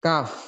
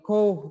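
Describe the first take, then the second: First: "Cough" said as "kaf", short and falling; correct reading of cough. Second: "cough" read wrongly like "coht", not "kaf". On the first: ("Cough" dibaca benar "kaf") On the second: ("cough" dibaca salah seperti "koht") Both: Shown as a demonstration. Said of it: "Tapi bacanya yang benar adalah cough".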